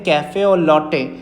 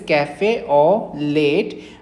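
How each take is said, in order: First: The last word sounds like 'lot'. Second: The last word sounds like 'late'. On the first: The speaker calls it right. "इसको pronounce करते हैं" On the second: The speaker calls it wrong. "it is written like this"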